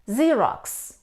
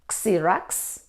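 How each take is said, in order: First: It begins without the letter name of X. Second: It begins with the letter name of X. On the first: The speaker calls it right. "The letter X isn't pronounced in these words" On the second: The speaker calls it wrong.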